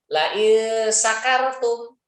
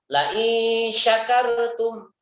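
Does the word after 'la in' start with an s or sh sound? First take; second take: s; sh. First: The word starts with a plain s sound. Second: The word starts with a sh sound. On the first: Whoever is drunk. The speaker calls it wrong. "pakai sin kecil" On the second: Whoever is grateful will be given more. The speaker calls it right. "pakai sin besar"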